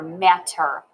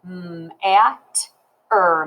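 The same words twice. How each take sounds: First: Said in the usual way. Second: "M-at-er" sound by sound; "M-at-er" segmented for spelling practice; finger-spelled sounds. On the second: Shown as a demonstration. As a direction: hold the M, then separate "at" and "er". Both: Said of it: "let's finger spell that one".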